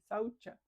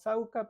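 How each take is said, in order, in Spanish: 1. La consonante del medio se dice con sonido 'ch'. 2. La consonante del medio se dice sin sonido 'ch'. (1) "la C en sánscrito se pronuncia C H" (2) "se traduce como sauca, pero se dice saucha"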